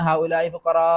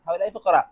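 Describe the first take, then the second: First: The vowel in fuqara is held long. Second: The vowel in fuqara is kept short. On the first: The speaker calls it wrong. "ഫുഖറാഇനെ നീട്ടണോ?" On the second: The speaker calls it right. "വേണ്ട"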